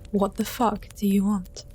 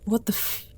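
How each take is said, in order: First: It is said in an angry, commanding tone. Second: It is said as a frightened whimper.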